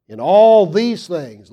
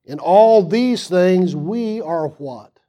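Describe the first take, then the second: First: Slow, loud, with all punched; louder and slower, all leaned on; stress on all. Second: Slow reading with all drawn out; drawn-out all and a questioning what; stress on all. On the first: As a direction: lean hard on the word all, slowly. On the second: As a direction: stretch all, then ask what. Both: Shown as a demonstration. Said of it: "read the text with the emphasis".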